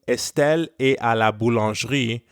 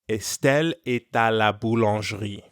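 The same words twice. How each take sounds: First: Est is said apart from the next word. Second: A t sound links est to the next word. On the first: The speaker calls it wrong. "instead of saying" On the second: The speaker calls it right. "we link et and à with a liaison"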